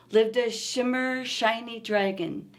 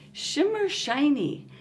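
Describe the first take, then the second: First: Said in the usual way. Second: Shimmer shiny with a long, clear sh on both words; sh sound in Shimmer shiny. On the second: Shown as a demonstration. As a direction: lean on the sh in Shimmer shiny for the kids. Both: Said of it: "I hear the sound sh".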